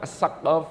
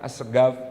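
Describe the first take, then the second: First: The middle consonant is a deep q sound. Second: The middle consonant is a hard g sound. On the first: This is the standard Arabic reading. "Itu pakai huruf qaf" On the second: This is how Yemeni dialect speakers say it. "jadi dibaca as-saqaf... Ini dialek dialek Yaman"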